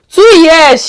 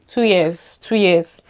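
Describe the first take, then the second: First: Much higher and louder, stunned; incredulous exclaim. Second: Said in the usual way. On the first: Real, not acted. Vlogger marvelling to viewers that she changed her accent, incredulous exclaim. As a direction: blurt it out in disbelief.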